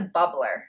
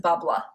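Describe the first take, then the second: First: Said in the usual way. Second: Bubbler with the r dropped, Boston "bubbla"; Boston accent. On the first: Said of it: "Or if you're from Boston". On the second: Shown as a demonstration. Vlogger showing how Boston says bubbler, Boston accent. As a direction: say it like a Bostonian, no final r. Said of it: "if you're from Boston".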